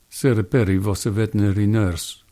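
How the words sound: It is spoken in a Russian accent. "Am I doing Russian? Maybe"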